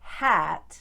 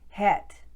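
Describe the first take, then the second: First: The vowel is a plain short a sound. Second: The vowel is a steady, pure eh sound.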